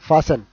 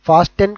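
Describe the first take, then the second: First: No t sound is heard in the middle. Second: A t sound is heard in the middle. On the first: The speaker calls it right. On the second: The speaker calls it wrong. "ఇక్కడ ఫాస్ట్ టెన్ కాదు"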